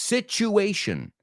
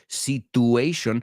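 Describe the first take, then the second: First: The middle t sounds like ch. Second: The middle t is a plain t sound. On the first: The speaker calls it right. "No, it's situation" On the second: The speaker calls it wrong. "Seguro que lo has dicho"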